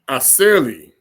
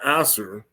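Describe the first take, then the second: First: The name ends with an l sound and vowel. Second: The name ends with an r sound. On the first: The speaker calls it right. "this is the real way you say this" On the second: The speaker calls it wrong. "not Aser"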